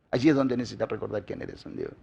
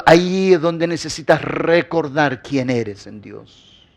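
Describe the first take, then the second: First: Very soft, low and quicker; low murmured echo for reflection; hushed repeat. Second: Slow, drawn-out preaching line, pitched down; measured, weighty delivery sinking lower; slow emphasis. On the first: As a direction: drop right down, almost to yourself. Preacher repeats the line in hushed tone. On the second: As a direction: stretch it out so every word lands. Preacher's first, drawn-out take of repeated line. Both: Real, not acted.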